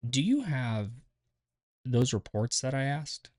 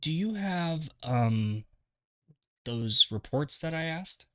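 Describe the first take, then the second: First: The break after 'have' is a silent pause. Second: The break after 'have' is filled with 'um'. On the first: The speaker seems to know what they are saying. The speaker calls it right. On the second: The speaker seems unsure of what they are saying. The speaker calls it wrong.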